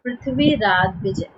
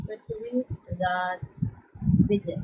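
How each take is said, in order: First: Said in the usual way. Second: Prithviraj Vijay spelled out slowly and softly for notes; slow dictation. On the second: Shown as a demonstration. Teacher to class dictating the book name, slow and soft. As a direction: drag out Prithviraj Vijay so students can write it.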